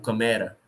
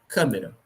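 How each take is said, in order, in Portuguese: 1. A tônica está na penúltima sílaba. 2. A tônica está na antepenúltima sílaba. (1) "Se fosse paroxítona" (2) "Se fosse proparoxítona"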